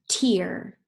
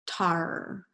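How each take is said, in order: First: The vowel sounds like ear. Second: The vowel sounds like ar. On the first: The speaker calls it right. "let's try it with ear" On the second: The speaker calls it wrong. "Let's try it with R"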